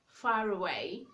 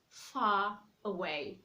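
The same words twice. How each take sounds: First: The R sound links smoothly into away. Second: The R sound is dropped before away. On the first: "you can hear the sound of the R in that word" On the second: "instead of saying far away"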